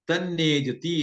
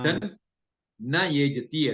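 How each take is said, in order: First: The words are joined into one word. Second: The three words are said separately.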